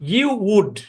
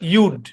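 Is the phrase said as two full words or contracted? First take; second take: full; contracted. First: Both words are said in full. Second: The words are joined into one short syllable. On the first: "এটা হচ্ছে মূল" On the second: "এর contraction হচ্ছে ইউড"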